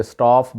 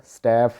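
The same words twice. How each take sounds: First: स्टाफ with a long "aa", staaf; wrong local pronunciation. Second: स्टाफ with a flat "æ", staeff; native English pronunciation. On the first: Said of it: "वहाँ पे स्टाफ बोला जाता है". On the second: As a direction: say स्टाफ with the vowel of "cat". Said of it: "इसका जो actual pronunciation है". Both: Shown as a demonstration.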